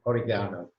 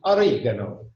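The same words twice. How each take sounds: First: It is said in a British accent. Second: It is said in an Italian accent. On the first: "And the British"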